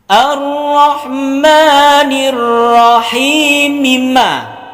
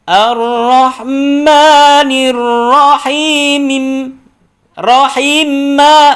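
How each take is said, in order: First: The final m carries a vowel into maliki. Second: The final m stays silent before maliki. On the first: The speaker calls it right. "hidup mimma" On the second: The speaker calls it wrong.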